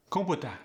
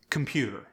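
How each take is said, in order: First: "Computer" higher, as koh-poo-tuh; Khmer-style "Computer", even koh-poo-tuh; equal syllable stress. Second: Said in the usual way. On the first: Shown as a demonstration. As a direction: give each syllable of "Computer" equal weight. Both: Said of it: "each syllable gets equal stress".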